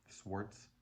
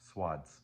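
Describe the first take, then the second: First: The W and the R are both sounded. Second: The W is sounded but the R is dropped. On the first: "Would you like me to pronounce the W?" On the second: "pronounce the W but not the R"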